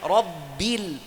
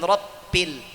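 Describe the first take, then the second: First: The middle consonant is a voiced b. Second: The middle consonant sounds like a voiceless p. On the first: The speaker calls it right. "Huruf ba harus ada sifat jahar" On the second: The speaker calls it wrong. "bukan rabbil"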